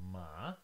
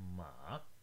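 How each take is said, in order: First: The pitch rises from mid to high. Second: The pitch dips low, then rises again. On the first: "The second one starts somewhere in the middle at around 3 and then goes all the way up to 5 or high" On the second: "The third tone has a little dip"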